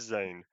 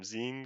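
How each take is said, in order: First: The name rhymes with 'lane'. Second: The name rhymes with 'line'. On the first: The speaker calls it right. "I think it is Zane" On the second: The speaker calls it wrong. "what I said last time"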